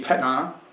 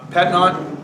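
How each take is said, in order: First: The final T sound is left silent. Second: The final T sound is pronounced. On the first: The speaker calls it right. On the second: The speaker calls it wrong.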